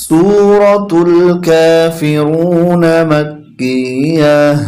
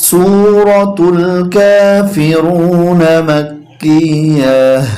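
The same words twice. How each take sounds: No difference in how they are said.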